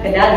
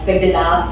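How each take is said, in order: First: It is said as two syllables, ke-dal. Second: It is said as three syllables, ke-je-dal. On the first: The speaker calls it right. "cara bacanya kedal ya" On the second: The speaker calls it wrong. "bukan kejedal"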